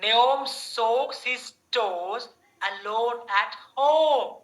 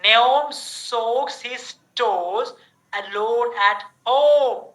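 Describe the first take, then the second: First: Slow repeat. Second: Very slow, each word spelled out; slow drill reading. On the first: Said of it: "Repeat karo mere saath". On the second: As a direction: read it slowly, stretching the O sound. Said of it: "First, O sound". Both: Shown as a demonstration.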